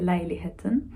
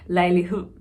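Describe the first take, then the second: First: Every syllable is clearly pronounced to the end. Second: The second half of the word is swallowed. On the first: "in Norwegian you say it like that" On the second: "in Danish, you just say leilighed"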